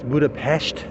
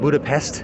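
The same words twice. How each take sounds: First: The name is said with the local pronunciation. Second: The name is said with a non-local pronunciation. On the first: The speaker calls it right. "that's how you pronounce it here" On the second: The speaker calls it wrong. "not Budapest"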